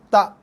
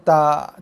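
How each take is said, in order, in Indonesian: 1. Hamzah akhirnya keras dan padat. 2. Hamzah akhirnya lembut dan berdesah. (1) "tapi tak. Ah, itu bacaan yang betul" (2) "bukannya tak"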